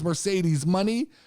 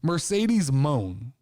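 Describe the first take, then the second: First: The second word sounds like 'money'. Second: The second word sounds like 'moan'. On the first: The speaker calls it right. "which I'm assuming is Mercedes money" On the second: The speaker calls it wrong. "I was pronouncing this all morning"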